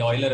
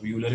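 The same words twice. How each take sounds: First: ऑयलर said OY-ler, opening on "oy"; actual pronunciation. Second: यूलर said YOO-ler, opening on "you"; common alternative pronunciation. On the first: Teacher answering student on Euler's name, ऑयलर said as OY-ler. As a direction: say ऑयलर with an "oy" start, like "oiler". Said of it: "ऑयलर है वैसे तो actual नाम". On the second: Teacher allowing the common variant, यूलर said as YOO-ler. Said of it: "यूलर भी बोल देते हैं". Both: Shown as a demonstration.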